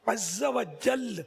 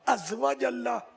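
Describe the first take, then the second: First: The phrase ends stopped on the final 'l'. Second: The phrase ends with an added final vowel. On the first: The speaker calls it right. "लाम पर वक्फ कर दें तो अच्छा है" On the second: The speaker calls it wrong. "तो क्या क्या बोलते हैं यार"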